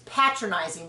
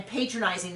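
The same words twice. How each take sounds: First: "patronizing" with PAT, as in pat; short-a patronizing. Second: "patronizing" with PAY, like patron; long-a patronizing. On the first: Contrasting the condescending sense, "patronizing" as pat-ronizing. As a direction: say "patronizing" as pat-ron-izing. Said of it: "versus patronizing". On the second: Explaining the customer sense, "patronizing" as pay-tronizing. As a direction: say "patronizing" as pay-tron-izing. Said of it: "I'm patronizing this restaurant versus patronizing". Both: Shown as a demonstration.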